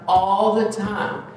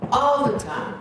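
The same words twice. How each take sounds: First: "all the time" said slowly, "all" leaned on with a fall; slow, weighty "all the time"; slow emphatic stress. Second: "All" hit high and held, falling off after; high ringing "All the time"; stress on all. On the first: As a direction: drag "all the time" out to drive it home. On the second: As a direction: lift "All" up like a call. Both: Shown as a demonstration.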